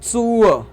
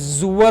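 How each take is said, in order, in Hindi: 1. यह शब्द ts ध्वनि से शुरू होता है। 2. यह शब्द z ध्वनि से शुरू होता है। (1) "ये क्या होगा" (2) "जनरली जुअर होना चाहिए बट नहीं"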